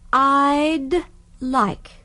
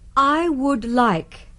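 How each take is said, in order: First: The phrase is said quickly, contracted. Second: The phrase is said in full.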